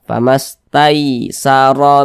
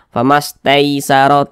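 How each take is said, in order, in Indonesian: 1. Vokal di tengah adalah bunyi 'ai' yang lembut dan mudah. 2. Vokal di tengah condong ke bunyi 'ei'. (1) "tapi mudah saja" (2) "Jangan sampai condong ke e, jangan sampai dibaca"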